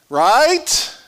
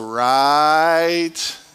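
First: It is said at a normal speed. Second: It is said very slowly, drawn out.

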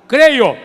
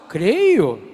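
First: It is said as a forceful exclamation. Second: It is said as a questioning query.

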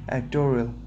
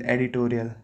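First: The word is said in an American accent. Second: The word is said in an Indian accent. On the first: "And in English and in American accent?" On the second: "In India, it is editorial"

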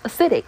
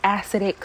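First: The first syllable is reduced, unlike 'acid'. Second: The first syllable sounds like in 'acid'. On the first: The speaker calls it right. "but it's acidic" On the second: The speaker calls it wrong. "I want to say acidic so bad, ... Because that's how you say the other form of the word, acid"

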